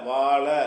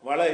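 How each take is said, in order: First: The first vowel is drawn out long. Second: The first vowel is cut short. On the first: The speaker calls it right. "வா ல வாழ அப்படி படிக்கணும்" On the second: The speaker calls it wrong. "வள இல்லை"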